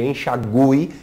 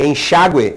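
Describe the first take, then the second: First: "enxague" said en-xa-GU-e, with U sounded; stress on GU. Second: "enxágue" stressed en-XÁ-gue. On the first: Teacher contrasts two similar words, stress on GU. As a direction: lean on a spoken GU in "enxague". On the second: Teacher contrasts two similar words, stress on XÁ. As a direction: hit the middle XÁ of "enxágue". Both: Shown as a demonstration. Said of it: "é diferente de".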